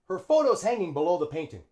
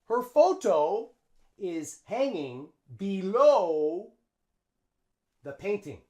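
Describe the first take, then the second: First: "Photo is" is contracted to "photo's". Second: "Photo is" is said as two full words. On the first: The speaker calls it right. "we use the contraction" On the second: The speaker calls it wrong. "No, we don't say that"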